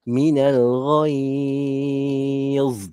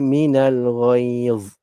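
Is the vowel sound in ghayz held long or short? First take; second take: long; short. First: The vowel in ghayz is drawn out long. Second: The vowel in ghayz is held briefly. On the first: "Kalau nak panjang enam" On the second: "Mad lin kita boleh baca dua atau empat atau enam harakat"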